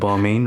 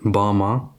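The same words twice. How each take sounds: First: Balmain is said with an anglicized pronunciation. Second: Balmain is said with a French pronunciation. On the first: This is how people usually say it. The speaker calls it wrong. "instead of like Balmain or whatever" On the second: This is how the rapper said it in the song. The speaker calls it right. "he said Balmain"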